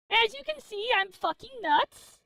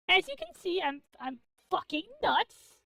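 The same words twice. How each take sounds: First: Mock crazed. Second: Said in the usual way. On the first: Shown as a demonstration. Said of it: "said twice, then repeated". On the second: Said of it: "repeat of the previous line".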